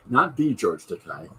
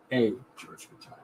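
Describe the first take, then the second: First: "Not the George Takei" with weight on "Not" and "the"; stress on not the. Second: "a George Takei" with the weight on "a"; stress on a. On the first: Correcting the viewer, stressing "Not the". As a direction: lean on "Not". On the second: Correcting the viewer, landing softly on "a". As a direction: lean on the little "a". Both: Shown as a demonstration.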